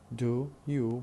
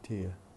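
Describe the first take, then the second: First: It is said as two separate syllables. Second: It is said blended into one syllable. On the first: "instead of saying do you" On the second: "we say dear"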